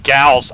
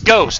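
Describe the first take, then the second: First: The vowel sounds like 'ow', as in house. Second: The vowel sounds like 'oh', as in ghost. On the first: "I'm looking at it going Gauss" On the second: "It's pronounced as Ghost"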